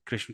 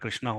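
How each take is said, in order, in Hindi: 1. नाम का अंतिम स्वर छोटा है। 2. नाम का अंतिम स्वर लंबा aa है।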